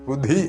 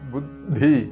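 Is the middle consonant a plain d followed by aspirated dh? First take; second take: no; yes. First: The d-plus-aspirated-dh cluster is not produced. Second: A plain d is followed by an aspirated dh. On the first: The speaker calls it wrong. "ബുദ്ധി അല്ല" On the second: The speaker calls it right. "ശ്രദ്ധിക്കേണ്ടത് ബുദ്ധി"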